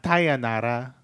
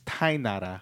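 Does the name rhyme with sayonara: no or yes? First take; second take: yes; no. First: The name rhymes with sayonara. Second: The name does not rhyme with sayonara. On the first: The speaker calls it wrong. "not Tainara a la Sayonara" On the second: The speaker calls it right. "It's Tainara"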